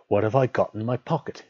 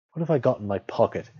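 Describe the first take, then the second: First: Slightly raised, firmer question; said louder. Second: Slightly raised, puzzled question; thinking out loud. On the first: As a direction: put the question more insistently. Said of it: "he said louder". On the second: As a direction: wonder aloud to yourself. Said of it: "he said out loud". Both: A narrator's reading.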